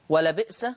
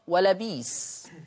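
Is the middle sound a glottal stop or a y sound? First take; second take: glottal stop; y sound. First: The middle has a glottal stop. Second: The middle has a long y sound.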